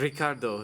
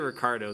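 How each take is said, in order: First: An American voice attempts a Spanish-style pronunciation. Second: It is said plainly in an American accent. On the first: The speaker is trying to sound authentic. The speaker calls it wrong. "they try to go for the Mexican accent ... they can't roll their R's" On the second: The speaker keeps their own accent. The speaker calls it right. "just say Ricardo. That's how I pronounce it"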